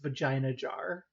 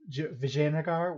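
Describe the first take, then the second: First: The name is squeezed to sound like 'vagina jar'. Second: The name is said fully as 'Vijayanagar'. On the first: The speaker calls it wrong. "I thought this was pronounced vagina jar" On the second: The speaker calls it right. "I mispronounced Vijayanagar"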